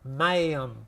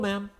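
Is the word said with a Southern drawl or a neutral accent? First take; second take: Southern drawl; neutral. First: It is said with a drawn-out Southern twang. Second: It is said in a neutral, unaccented way. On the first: "In the South, ma'am. That's that twang, that drawl again" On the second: "I say ma'am"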